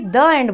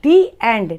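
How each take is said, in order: First: 'The' is said with a short uh vowel. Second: 'The' is said with a long ee vowel. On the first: The speaker calls it wrong. "ना कि द end बोलते हैं" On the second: The speaker calls it right. "हम लोग क्या बोलते हैं? दी एंड"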